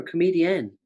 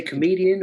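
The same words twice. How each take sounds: First: Comedian with a fuller final "-en"; alternative pronunciation. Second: Said in the usual way. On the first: Shown as a demonstration. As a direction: say comedian with an unreduced last vowel, "comedi-ENN". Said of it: "I don't know if I say comedian or comedian". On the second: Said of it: "I don't know if I say".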